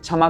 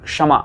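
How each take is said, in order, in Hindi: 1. शब्द की शुरुआत में स्पष्ट k-sh संयोग नहीं है। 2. शब्द की शुरुआत k और मूर्धन्य श से होती है। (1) "कुछ लोग क्षमा कह देते हैं" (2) "इसमें आधा क और मूर्धन्य शकार है।"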